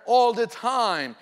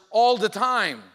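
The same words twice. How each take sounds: The two takes are said the same way.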